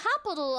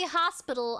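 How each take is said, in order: First: The word is said without the S sound. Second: The word is said with the S sound. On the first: The speaker calls it wrong. "I couldn't pronounce the S. I would say hospital" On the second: The speaker calls it right. "I couldn't say hospital"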